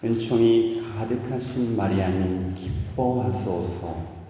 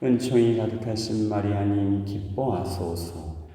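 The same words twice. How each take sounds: First: It is said slowly, with lively intonation. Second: It is said quickly, with little intonation. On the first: The words are dwelt on and meditated. The speaker calls it right. "천천히 하셔야 돼요. 좀 곡 씹으면서 영어 하듯이 인토네이션을 줘가지고요" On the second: The prayer is rushed through without reflection. The speaker calls it wrong. "이렇게 해요"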